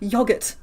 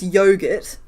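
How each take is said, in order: First: "yogurt" said YOG-urt, short o as in dog; the fancy short-o "yogurt"; fancier yogurt. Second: "yogurt" said YOH-gurt, long o as in go. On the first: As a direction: rhyme the start of "yogurt" with jog. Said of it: "yogurt just sounds fancier". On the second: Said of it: "I know that it's yogurt". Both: Shown as a demonstration.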